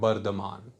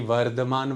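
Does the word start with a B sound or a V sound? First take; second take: B; V. First: The word begins with a B sound. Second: The word begins with a V sound. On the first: "तो बोलेंगे बर्धमान" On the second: "वर्धमान वा नहीं होगा"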